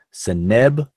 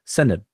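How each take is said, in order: First: Seneb said se-NEB, second syllable stressed. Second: Seneb said SE-neb, first syllable stressed. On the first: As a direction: land the weight on NEB in Seneb. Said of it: "with the stress on the second syllable". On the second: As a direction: hit SE hard in Seneb and let the end fall away. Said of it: "with the stress on the first syllable". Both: Shown as a demonstration.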